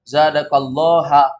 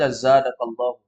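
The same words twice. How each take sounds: First: The word ends with an 'a' vowel. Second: The word ends with an 'u' vowel. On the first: God is the one who is increased. The speaker calls it wrong. "jangan antum baca zadakallahu. Kalau dibaca zadakallahu berarti Allah objek" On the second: God is the one who increases you. The speaker calls it right. "Jadi harus dibaca zadakallahu"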